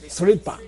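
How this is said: It begins with 'sr' and ends with 'dpa'. "how would a Ladaki pronounce it?"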